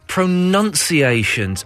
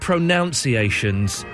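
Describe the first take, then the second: First: The second syllable sounds like 'nun'. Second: The second syllable sounds like 'noun'. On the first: The speaker calls it right. "Oh, you mean pronunciations" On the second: The speaker calls it wrong. "You said pronunciations. ... that second O isn't there"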